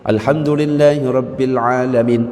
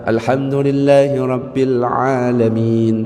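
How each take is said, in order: First: The vowel near the end is cut short. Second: The vowel near the end is drawn out long. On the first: The speaker calls it wrong. "itu yang salah" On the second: The speaker calls it right. "yang penting masih panjang"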